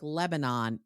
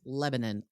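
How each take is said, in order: First: It is said like the country's name. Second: It is said unlike the country's name. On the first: The speaker calls it wrong. "not pronounced like the country, like Lebanon" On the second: The speaker calls it right. "It is Lebanon, like Pennsylvania's Lebanon"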